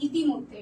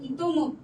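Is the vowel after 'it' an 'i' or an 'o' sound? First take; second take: i; o. First: The second syllable has an 'i' vowel. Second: The second syllable has an 'o' vowel. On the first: The speaker calls it wrong. "উচ্চারণে অনেক সময় বলি ইতিমধ্যে, এটা কিন্তু correct না" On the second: The speaker calls it right. "এটা হবে ইতোমধ্যে"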